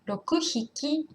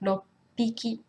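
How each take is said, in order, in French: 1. Il est dit en entier avec un son h. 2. Il est contracté avec un son p doublé. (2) "donc loppiki"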